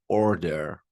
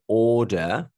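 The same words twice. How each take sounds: First: It is said with an American accent. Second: It is said with a British accent. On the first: "Or American, obviously" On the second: "we're teaching British. So"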